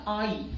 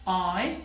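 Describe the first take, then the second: First: آئی as "aa-ee", ending on a full ee; wrong Urdu-style I. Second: آئی as one smooth "ae" glide; correct English I. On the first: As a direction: say آئی as two vowels. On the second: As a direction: say آئی as a single drawn-out syllable. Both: Shown as a demonstration. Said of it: "not آئی".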